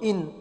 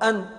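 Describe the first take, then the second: First: The word starts with an 'i' vowel. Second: The word starts with an 'a' vowel. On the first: It means 'since', giving a reason. "رويت بكسر الهمزة" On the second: It means 'because', giving a reason. "وبفتحها"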